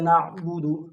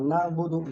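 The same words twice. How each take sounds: First: The middle consonant is a throaty pharyngeal ain. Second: The middle consonant is a plain glottal stop. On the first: The speaker calls it right. "सही प्रोनाउंसिएशन के साथ" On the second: The speaker calls it wrong. "ये गलत है, इसको हम wrong pronunciation कह सकते हैं"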